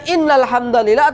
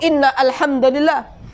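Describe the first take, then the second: First: The hamza is dropped and the words run together. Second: The hamza is pronounced, separating the two words. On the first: The speaker calls it right. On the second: The speaker calls it wrong.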